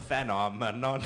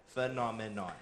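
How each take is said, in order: First: Phenomenon sounded out with FAN at the start; misspelled pronunciation. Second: Said in the usual way. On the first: Shown as a demonstration. Judge mocking the wrong spelling, phenomenon said with a hard FAN. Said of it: "You spelled". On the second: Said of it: "The correct spelling is".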